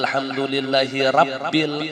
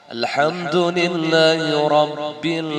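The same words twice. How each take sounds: First: The r sound is light and thin. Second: The r sound is heavy, with an o-like vowel. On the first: The speaker calls it wrong. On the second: The speaker calls it right. "ro-nya itu tafkhim karena berbaris fathah"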